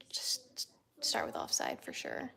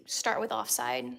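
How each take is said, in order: First: Unvoiced whispered advice; whispering. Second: Said in the usual way. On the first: Real, not acted. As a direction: whisper the recommendation. Repeats the advice, second time whispered.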